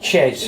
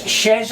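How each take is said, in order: First: The name starts with a hard 'ch' sound. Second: The name starts with a soft 'sh' sound. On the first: The speaker calls it wrong. "and not Chez" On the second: The speaker calls it right. "it's Shez"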